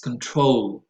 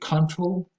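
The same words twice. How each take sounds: First: The stress is on the second syllable. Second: The stress is on the first syllable. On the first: The speaker calls it right. "the stress goes on the second syllable" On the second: The speaker calls it wrong. "I hear a tendency to say control"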